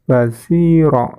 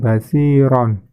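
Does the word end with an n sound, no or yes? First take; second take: no; yes. First: The word ends on a vowel, without n. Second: The word ends with an n sound. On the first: The verse ends here with a stop. The speaker calls it right. "maka bacanya basiro ya" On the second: The reading continues without a stop. The speaker calls it wrong. "bukan basiron"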